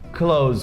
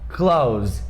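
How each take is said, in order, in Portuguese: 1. O final é um som de 'z' simples, com a língua dentro da boca. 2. O final tem um som de 'th' ligado ao 's'. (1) "com som de Z mesmo, não colocam a língua pra fora" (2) "tem esse T H, só que esse T H é emendado com um E S"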